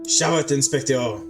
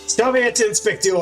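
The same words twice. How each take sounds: First: It is said at a quieter, normal volume. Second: It is said loudly.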